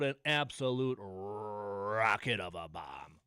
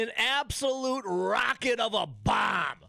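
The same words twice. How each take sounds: First: Slow, drawn-out mock announcer, lower; quoting the announcer. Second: Quoting the announcer. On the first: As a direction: savour each word like the broadcaster did. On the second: Retold or imitated. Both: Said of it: "And, and I quote".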